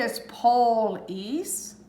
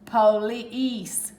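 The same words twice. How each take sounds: First: "police" said slowly, PO-lis; trying a split. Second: "police" with a long E, po-LEESE; correct pronunciation. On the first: Teacher trying a split for students. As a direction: test "police" slowly with the stress up front. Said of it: "if I do it here, it's police". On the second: Teacher giving the correct reading. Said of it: "You're hearing the E sound here". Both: Shown as a demonstration.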